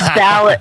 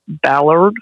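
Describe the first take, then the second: First: It is said in a Massachusetts accent. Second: It is said in a non-Massachusetts accent. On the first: "I know you're going to make fun of the way I say it" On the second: "For all you non-Massachusetts people"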